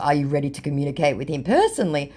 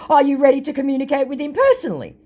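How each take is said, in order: First: Said in the usual way. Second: High, quick and pushy; mocking the scammer's pushy question, higher and quick. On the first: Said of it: "And in response to". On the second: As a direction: rattle it off like a scammer pushing the sale, higher. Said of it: "To which my scammer said".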